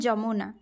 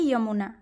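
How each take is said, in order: First: The word begins with a j sound. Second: The word begins with a y sound. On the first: This is the Odia pronunciation. "हम क्या बोलते हैं उड़िया में जमुना" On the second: This is the Hindi pronunciation. "लेकिन वो हिंदी में क्या होता है यमुना"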